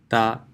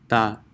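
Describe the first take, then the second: The two takes are said the same way.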